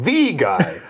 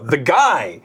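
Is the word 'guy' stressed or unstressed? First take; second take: unstressed; stressed. First: The word guy carries no emphasis. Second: The word guy carries strong emphasis. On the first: The speaker calls it wrong. "So he says" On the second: The speaker calls it right. "You have to emphasize the word guy"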